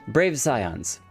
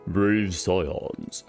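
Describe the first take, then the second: First: It is said in the speaker's normal voice. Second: It is said in a put-on dragon voice.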